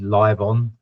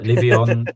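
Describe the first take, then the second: First: The name sounds like the two words live on. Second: The name is said as one word, Livion. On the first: This is how people in England say it. The speaker calls it wrong. "People pronounce it in England live on" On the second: This is the speaker's own way of saying it. The speaker calls it right. "but Livion"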